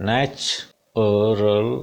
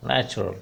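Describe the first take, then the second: First: NATURAL drawn out slowly, starting "natch"; split into syllables. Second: Said in the usual way. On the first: Shown as a demonstration. Teacher showing learners three syllables, NATURAL slowly broken up. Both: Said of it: "there are three syllable".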